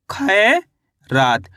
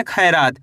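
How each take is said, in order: First: "खैरात" drawn out, खै rising, pause, then रात; syllable by syllable. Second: Said in the usual way. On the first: Shown as a demonstration. Teacher reads back the spelled word to learners, slowly split in two. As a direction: hold खै in "खैरात", wait, then drop onto रात. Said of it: "तो मिलके बन गया ये". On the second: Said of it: "क्या लिखेंगे?".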